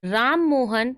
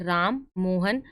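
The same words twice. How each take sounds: First: The two names run together without a pause. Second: There is a short pause between the two names. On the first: The speaker calls it wrong. "इस तरीके से बोला तो सही नहीं लगा" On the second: The speaker calls it right. "Coma का जब यूज हुआ है तो आप थोड़ा थोड़ा सा रुकोगे"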